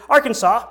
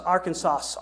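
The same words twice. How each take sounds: First: "Arkansas" said AR-kan-saw, silent final s; correct Arkansas. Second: "Arkansas" said ar-kan-SAS with the final s sounded; pronouncing Arkansas. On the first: Pastor settling the local way to say it, ending in saw. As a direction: land it as Arkansaw, no s at the end. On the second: Pastor testing a place name for his congregation, final s sounded. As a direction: spell it out as Ar-kan-sas, hissing the last s. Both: Shown as a demonstration. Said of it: "how do you say it here?".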